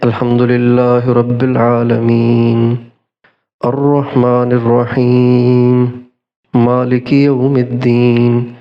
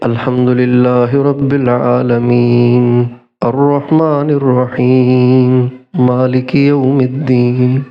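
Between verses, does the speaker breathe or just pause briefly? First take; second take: breathe; brief pause. First: A breath is taken after each verse. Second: Brief silent pauses without a new breath.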